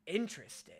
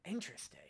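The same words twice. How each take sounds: First: Said in the usual way. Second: Breathy whisper to himself; a hushed, musing interesting. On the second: Real, not acted. Streamer reacting to a clip, whispering to himself.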